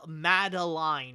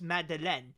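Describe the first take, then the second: First: The name is said with an English pronunciation. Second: The name is said with a French pronunciation. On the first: "but in English, I know it's like Mad Madeline or something like that" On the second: "when you say it in French, it's Madeleine"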